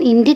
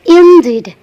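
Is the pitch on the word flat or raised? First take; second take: flat; raised. First: The word is said flat, without a raised pitch. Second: The word is said with a slightly raised pitch. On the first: The speaker calls it wrong. "Jangan indeed ya" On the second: The speaker calls it right. "tapi indeed. Dinaikkan sedikit"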